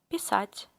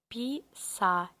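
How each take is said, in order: First: It is said faster. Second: It is said slowly.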